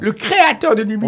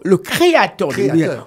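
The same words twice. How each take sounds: First: Créateur is slurred, sounding like cratère. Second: Créateur is articulated clearly, sound by sound. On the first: The speaker calls it wrong. "On dirait qu'il dit le cratère de l'émission" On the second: The speaker calls it right. "Faut bien articuler phonème par phonème"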